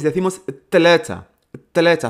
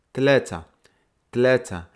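First: "tlecha" with a harder, pushed T and a bit louder; stronger T tlecha. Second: "tlecha" with a soft, light T. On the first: Teacher contrasting the forceful T of "tlecha" for Tuesday. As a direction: push the T of "tlecha" with more force, meaning Tuesday. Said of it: "Hacemos un poco más de fuerza". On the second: Teacher showing learners the soft T of "tlecha". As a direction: say "tlecha" gently, soft T, meaning three. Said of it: "La T es suave". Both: Shown as a demonstration.

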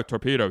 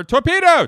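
First: Movie crew impression. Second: Very high, loud alarm yell; frantic movie impression. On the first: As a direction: relay the warning in a near-normal voice. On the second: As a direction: scream the warning like a panicked lookout. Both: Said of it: "here's my impression of".

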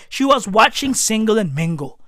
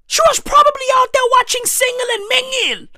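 First: Said in the usual way. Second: High-pitched, fast, worked-up delivery; worked-up exclamation. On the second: Real, not acted. Comedian speculating on granny's TV show, worked-up exclamation. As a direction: rattle it off high in excited indignation. First, excited take of repeated line.

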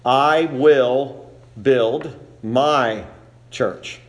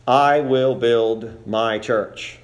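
First: Very slow "I will build my church" with weight on I and MY; stress on I and MY. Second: "I will build my church" said slowly, each word weighted evenly; measured, solemn reading of "I will build my church"; slow emphatic quote. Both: Shown as a demonstration. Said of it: "we emphasize where Christ places the emphasis".

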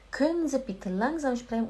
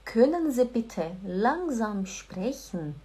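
First: Said in the usual way. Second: Slow, careful German sentence; slow, polite German. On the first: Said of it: "O-, ok?". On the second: Shown as a demonstration. Teacher models the polite request slowly and carefully. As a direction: spell out every word slowly. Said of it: "Por favor, pessoal, anota".

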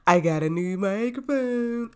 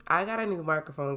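First: Sung, singsong brag. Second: Said in the usual way. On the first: Real, not acted. Sung, host showing off new microphone, gleeful singsong. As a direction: sing out the boast with glee. Repeats the boast, bigger.

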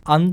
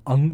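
First: First アン ending in N, tongue tip touching; final N. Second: Second アン ending in NG, back of the tongue; final NG. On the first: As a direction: close アン with a front n. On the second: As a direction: close アン with a nasal ng at the back. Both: Shown as a demonstration. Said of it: "Nとエヌジーの違いです".

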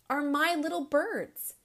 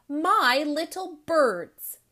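First: Gently, higher and tender; fond. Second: "my little birds" slow and louder, leaning on "my"; stress on my. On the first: Principal telling the boy all children are his birds, fondly. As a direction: tell them they're all yours. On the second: Principal repeating "my little birds" slowly to drive it home. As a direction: insist "my little birds" word by word. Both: Acted.

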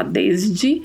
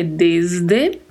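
First: Desde said Brazilian-style as dezdi; wrong pronunciation. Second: Desde with a closed final e; right pronunciation. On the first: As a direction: desde with the final e turned to i. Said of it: "Não vamos falar desde". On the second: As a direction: desde ending in a crisp closed e. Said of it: "a pronúncia é com esse é sempre fechado". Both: Shown as a demonstration.

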